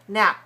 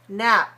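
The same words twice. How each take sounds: First: The final p closes the lips without release. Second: The final p is released with audible air. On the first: "We only need to put the lips together to close it" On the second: "If I release it, it looks like this"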